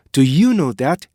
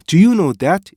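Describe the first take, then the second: First: "Do you know that" with short "do", long "ee-yoo"; native linking. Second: "Do you know that" with plain higher "doo-yoo"; Korean-style reading. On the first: Teacher giving the native take for comparison, linked. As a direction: glide through a hidden stop in "Do you know that". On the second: Teacher giving the learners' take for comparison, unlinked. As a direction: say "Do you know that" with no stop inside. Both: Shown as a demonstration. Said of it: "이거 다르잖아요".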